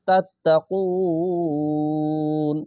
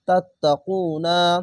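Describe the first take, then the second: First: The word ends on n with no vowel. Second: The word ends with a final vowel after n. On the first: The reader stops at this word. "না বলে তাত্তাকুন নুনের উপরে সাকিন দিবেন" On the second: The reading continues without a stop. "নুন যাবে না তাত্তাকুনা"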